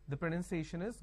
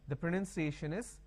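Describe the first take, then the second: No difference in how they are said.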